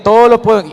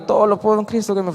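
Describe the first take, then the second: First: Loud, much higher, full declaration; proclaimed loudly. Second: Mumbled through tears, a bit higher and fast; tearful rushed recital. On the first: Told to repeat it properly, he now shouts it out. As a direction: belt the verse out with conviction. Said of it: "no, repítalo bien". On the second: Retelling his tearful first try at the verse, hurried and higher. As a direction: rush the verse while still crying. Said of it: "Y yo iba llorando". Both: Retold or imitated.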